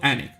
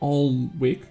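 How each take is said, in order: First: It sounds like Annick, with no l sound. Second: The l and w sounds are both pronounced. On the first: "apparently people call it Anik" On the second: "that's how we would pronounce it"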